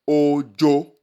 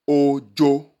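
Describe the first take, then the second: No difference in how they are said.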